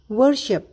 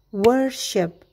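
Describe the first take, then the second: First: The word is said quickly. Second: The word is said slowly. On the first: "Sekarang kita lakukan dengan lebih cepat" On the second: "perlahan terlebih dahulu"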